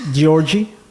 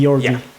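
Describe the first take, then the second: First: The name begins with a soft J sound. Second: The name begins with a hard G sound. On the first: The speaker calls it wrong. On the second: The speaker calls it right.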